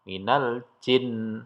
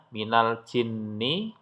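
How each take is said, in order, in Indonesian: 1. Frasa ini berakhir pada n yang ganda dan ditahan. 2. Frasa ini berakhir dengan vokal setelah n.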